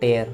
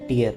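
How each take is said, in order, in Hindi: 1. इसका स्वर 'air' जैसा है। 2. इसका स्वर 'ear' जैसा है। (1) "लास्ट में ईयर नहीं पढ़ते हैं, एयर पढ़ते हैं" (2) "पहले वर्ड का मतलब है आंसू"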